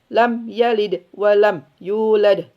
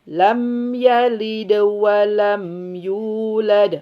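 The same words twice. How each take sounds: First: The m is clipped short without nasal resonance. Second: The m is held with full nasal resonance. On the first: The speaker calls it wrong. "Nggak boleh" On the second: The speaker calls it right. "Alirkan sampai ke khoisium, sempurnakan"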